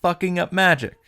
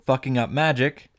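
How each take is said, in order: First: Sarcastic callback. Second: Said in the usual way. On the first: Real, not acted. Streamer mocking how little progress the hero made, sarcastic. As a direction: land the callback with dry sarcasm.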